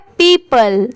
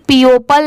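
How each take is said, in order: First: The o is silent, giving two syllables. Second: Each written letter is sounded, giving three syllables. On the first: The speaker calls it right. "इसकी sound भी अलग आ रही है पीपल" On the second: The speaker calls it wrong. "Word to word pronounce करें तो इसे पीओपल नहीं पढ़ेंगे"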